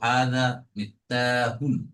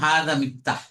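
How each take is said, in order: First: The last word ends with a full -un ending. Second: The last word ends without the -un ending. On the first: The full ending is kept to help learners. "পুরোটা উচ্চারণ করব তানবিন সহ" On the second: This follows the standard reading rule. "পড়ার নিয়ম হাদা মিফতাহ"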